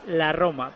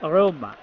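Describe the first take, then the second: First: "la Roma" with a Spanish rolled initial R; Spanish pronunciation. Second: "Roma" with an Italian-style R and lengthened o; Italian pronunciation. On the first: Pundit shows how Spaniards say the club, Spanish pronunciation. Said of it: "para nosotros es". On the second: Pundit imitates Italians saying the club, Italian pronunciation. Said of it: "los italianos la R esa la pronuncian". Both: Shown as a demonstration.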